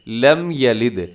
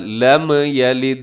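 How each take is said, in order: First: The m is held steady without any jolt. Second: The m is released with a jolting movement. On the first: The speaker calls it right. "बल्कि" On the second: The speaker calls it wrong. "इसको ऐसे नहीं पढ़ना"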